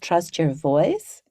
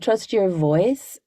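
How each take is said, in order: First: It is said with an Australian-sounding accent. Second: It is said with a neutral accent.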